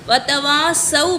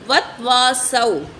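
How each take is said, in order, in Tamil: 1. முதல் 't' ஒலிக்குப் பின் ஓர் உயிரெழுத்து வருகிறது. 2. முதல் 't' ஒலிக்குப் பின் உயிரெழுத்து எதுவும் இல்லை. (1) "பதிலா" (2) "கவனக்குறைவால் இப்படி ஓதிடுவோம் தெரியாமல்"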